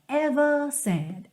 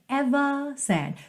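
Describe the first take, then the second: Both takes have the same delivery.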